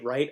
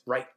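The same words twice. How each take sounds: First: It is said in the speaker's normal voice. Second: It is said as Baelish, final t overpronounced.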